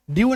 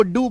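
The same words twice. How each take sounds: First: ड्यू with a clear y-glide after the d; wrong pronunciation. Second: डू as a plain "doo", no y-glide; correct pronunciation. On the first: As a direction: say ड्यू as "dyoo", the way not to say it. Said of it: "ड्यू नहीं बोलना है". (ड्यू में 'य' की साफ़ आवाज़) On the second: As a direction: say डू with the d going straight into a long oo. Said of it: "आपको डू बोलना है". (डू, बिना 'य' के, लंबा ऊ) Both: Shown as a demonstration.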